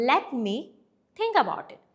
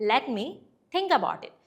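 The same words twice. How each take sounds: Both takes have the same delivery.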